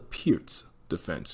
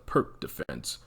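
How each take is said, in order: First: The name ends with a ts sound. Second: The name ends with a k sound. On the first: The speaker calls it right. "but it's called the Peart's defense" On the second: The speaker calls it wrong. "phonetically mispronounce it by calling it the Perk defense"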